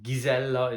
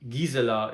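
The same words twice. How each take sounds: First: The name is pronounced the Hungarian way. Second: The name is pronounced the German way. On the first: "the Hungarian pronunciation" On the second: "the German pronunciation of her name"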